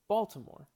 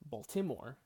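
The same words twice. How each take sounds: First: The stress is on the first syllable. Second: The stress is on a later syllable. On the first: The speaker calls it right. "We say Baltimore. We, we really stress the first syllable" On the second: The speaker calls it wrong. "we don't say Baltimore"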